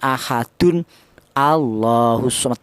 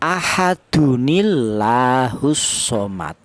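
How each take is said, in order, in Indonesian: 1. Ahadun dan Allah dibaca terpisah, tanpa disambung. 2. Ahadun menyambung ke Allah dengan bunyi i penyambung. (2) "Jadi cara bacanya ya"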